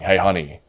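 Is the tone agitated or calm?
agitated. The voice sounds agitated and irritated.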